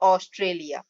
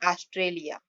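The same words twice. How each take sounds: First: The first vowel is a rounded 'aw' sound. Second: The first vowel is an open 'ah' sound. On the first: The speaker calls it right. "इसके लिए हम बोलेंगे इसे ऑस्ट्रेलिया" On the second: The speaker calls it wrong. "अ स्वर नहीं लगाते तो यह होता ऑस्ट्रेलिया, लेकिन ये स्वर प्रोनाउंसिएशन रॉन्ग है"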